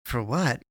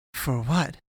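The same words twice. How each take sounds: First: Said in the usual way. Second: Higher, startled question with a rising end; almost aghast. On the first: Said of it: "he repeated". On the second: Acted. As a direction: she can't believe he's thanking her. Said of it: "almost aghast".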